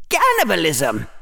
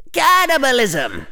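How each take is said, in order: First: Falling mock cry of alarm, no real volume; mock shout. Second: Higher-pitched mock cry of horror; mock shout. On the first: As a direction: cry out as if horrified, without shouting. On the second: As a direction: cry it out high in put-on alarm. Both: A narrator's reading. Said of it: "Hufflepuff was shouting".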